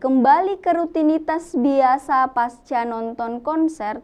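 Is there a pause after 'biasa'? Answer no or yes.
no. It runs on with no pause after 'biasa'. Returning to routine seems to happen after the concert. The speaker calls it wrong. "itu kalimatnya membuat kita menjadi salah pengertian karena seharusnya di sini itu ada tanda koma"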